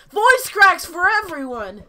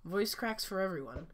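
First: High, very loud, drawn-out announcement; over-the-top high-pitched shout; joking yell. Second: Said in the usual way. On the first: Pretend. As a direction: holler it out slowly to everybody. Joke yell of the same phrase.

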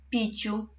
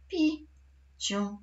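First: Said in the usual way. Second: "Piciu" broken into pi, pause, ciu; syllable by syllable. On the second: Shown as a demonstration. Teacher showing pupils the third word's syllables, syllable by syllable. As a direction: say "Piciu" as two separate, drawn-out syllables. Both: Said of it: "Podzielimy je na sylaby".

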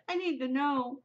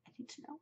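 First: High, voiced burst of impatience; worked-up, high-pitched demand; desperate insistence. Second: Tiny, very soft plea; high and faint, almost whispered; desperate hush. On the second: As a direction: barely let it out. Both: Real, not acted. Desperate to learn the ending.

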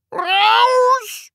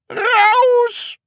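First: High, long-drawn enraged yell; all-out furious scream. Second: High, loud enraged yell; furious scream. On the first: Teacher at gleeful pupil, screaming at full pitch. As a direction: scream it out at the very top of your voice. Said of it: "schrie Herr Groll noch lauter". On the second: Teacher red-faced at torn sleeve, screaming. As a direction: scream the pupil out of the room. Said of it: "schrie Herr Studienrat Groll". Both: Acted.

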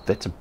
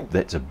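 Both takes have the same delivery.

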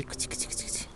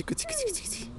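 First: Soft cat call. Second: Much higher, soft sing-song cuți cuți; squeaky cat call. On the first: Parent softly calling the shy cat Rolly. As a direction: murmur it gently to the cat. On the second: Parent luring the cat Rolly with a squeaky high call. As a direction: pitch it way up to tempt the cat. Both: Real, not acted. Coaxing a frightened cat closer.

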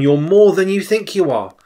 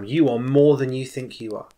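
First: Louder and higher, pressing the words home; raised, insistent repeat of the prophecy; emphatic repeat. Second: Said in the usual way. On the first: Retold or imitated. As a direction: say it again with more force. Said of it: "So he says again". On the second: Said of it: "he says it a third time".

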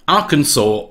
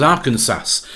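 First: Arkansas said as "Arkansaw"; correct Arkansas pronunciation. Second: Arkansas said like "Kansas" with Ar in front; wrong Arkansas pronunciation. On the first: Presenter reading out an odd state law, Arkansas pronounced correctly as "Arkansaw". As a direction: end Arkansas on "saw", silent final s. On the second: Presenter showing the forbidden way to say it, Arkansas mispronounced as "Ar-Kansas". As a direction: sound the final s in Arkansas. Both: Shown as a demonstration. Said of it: "must not be pronounced as Arkansas".

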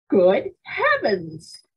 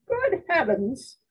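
First: A touch louder, slow dismayed outcry; mother and grandmother reacting to the stunt, mild shout. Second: High, slow startled gasp of words; shocked cry. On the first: Understated shout. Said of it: "shouted my mother and grandmother in unison". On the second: Startled high cry. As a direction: grandmother crying out in alarm at breakfast. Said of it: "cried my grandmother". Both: A narrator's reading.

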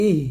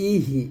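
First: ইহ closed on a vowelless, breathed h; correct ইহ. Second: ইহি with an added i after h; mispronounced ইহি. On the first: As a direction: end ইহ on the h alone. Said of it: "বলতে হবে ইহ". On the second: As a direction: open the h of ইহি into a second syllable. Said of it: "এরকম বলা যাবে না". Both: Shown as a demonstration.

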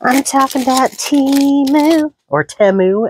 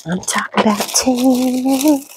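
First: High, loud ad announcer; Temu commercial voice. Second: Lightly voiced high ad read; sing-song it like a TV ad; Temu commercial voice. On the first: Retold or imitated. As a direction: belt it like a cheesy ad. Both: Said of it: "as the commercials say".

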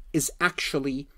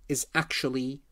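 Both takes have the same delivery.

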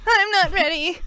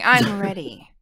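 First: High, loud silly squeak; not-ready voice. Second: Said in the usual way. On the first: Acted. Cued to introduce the topic, putting on not-ready voice. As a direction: squeal it in a put-on voice, half laughing. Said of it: "It's my not ready voice". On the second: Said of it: "just kidding".

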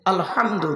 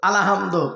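First: আলহামদু with h from inside the throat; correct throaty h. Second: আলহামদু loosened to a-la-ham-do with plain h; common mispronunciation. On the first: Preacher teaching Surah Fatiha, correct throaty h. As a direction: say আলহামদু, tight l-h join, ending in u. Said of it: "এ গলার ভেতর থেকে হে এটা উচ্চারণ করবেন". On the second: Preacher imitating worshippers' mistake, slack alahamdo. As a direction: say আলহামদু with an extra a, ending in o. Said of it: "আমরা উচ্চারণ করতে গিয়ে কি বলি". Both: Shown as a demonstration.

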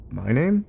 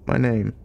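First: "My name" rising steeply on "name"; "My name?" with pitch climbing to the end; questioning echo. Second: "My name" with a falling tune; "My name" as the start of an answer, pitch falling; statement. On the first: Old man echoes the question. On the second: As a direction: state "My name" and let "name" fall. Old man begins his answer. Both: A narrator's reading.

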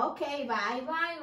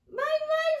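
First: Said in the usual way. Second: Much higher puppet mouse goodbye; mouse says bye. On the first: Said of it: "you say bye-bye". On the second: Shown as a demonstration. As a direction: wave bye as the little mouse. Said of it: "Ray, you say bye-bye to our friends".

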